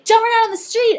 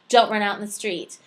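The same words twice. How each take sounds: First: It is said in an urgent, panicked way. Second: It is said in a flat, dry, monotonous way. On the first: It is an urgent warning in a moment of danger. "my tone there is very panicked" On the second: It is simply stating a rule. "my tone is very dry and monotonous and providing of rules"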